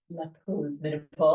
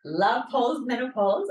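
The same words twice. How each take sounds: First: Lower-pitched French accent. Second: Said in the usual way. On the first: Shown as a demonstration. Podcast host giving the show's name, French accent. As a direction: put on a French accent for the title. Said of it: "say it in a French accent". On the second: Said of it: "or I should say it in a French accent".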